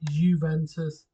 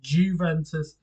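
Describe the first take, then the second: First: The word begins with a Y sound. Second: The word begins with a J sound. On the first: The speaker calls it right. "not Juventus" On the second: The speaker calls it wrong. "I thought it was Juventus"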